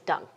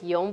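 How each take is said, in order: First: The name is said with an English pronunciation. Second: The name is said with a Vietnamese pronunciation. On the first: "we say in English it's Dung" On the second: "if you pronounce it Vietnamese"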